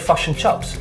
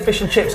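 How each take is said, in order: First: The vowels sound central, like fush and chups. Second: The vowels are a clear, front i sound. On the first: "Kiwis say fush and chups" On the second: "Aussies say fish and chips"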